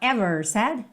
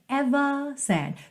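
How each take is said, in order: First: The first vowel is said short and quick. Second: The first vowel is stretched out long. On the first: "Ao invés de falar ever said" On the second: "Percebe como eu estico é?"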